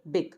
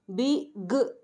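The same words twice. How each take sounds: First: Said in the usual way. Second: "बिग" split into two separate sounds; wrongly chopped "बिग", consonant alone at the end; broken into sounds. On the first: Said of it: "हम इसको एक ही". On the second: Shown as a demonstration. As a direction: pull "बिग" apart as "bi, guh" with a gap. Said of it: "break नहीं कर रहे".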